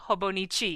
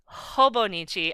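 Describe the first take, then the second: First: The stress is on the last syllable. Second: The stress is on the first syllable. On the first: "I'm emphasizing the chi" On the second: "you're emphasizing the ho"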